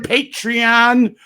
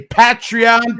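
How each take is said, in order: First: Patreon with a long first a, as in "pay"; long-a pronunciation. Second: Patreon with a short first a, as in "pat"; short-a pronunciation. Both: Shown as a demonstration. Same name said two ways.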